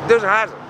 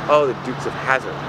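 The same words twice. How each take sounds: First: Put-on higher, accented repeat of Dukes of Hazzard; imitating her accent. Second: Said in the usual way. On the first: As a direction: mimic her saying the show's name, pitched up. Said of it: "she did have a very thick accent". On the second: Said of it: "And I said".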